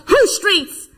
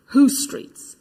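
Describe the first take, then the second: First: Chanted, loud, high rallying call; yelled chant. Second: Said in the usual way. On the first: Acted. Chanted, friend running up behind in the march, yelling. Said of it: "and yelled". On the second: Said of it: "a thousand people chanting".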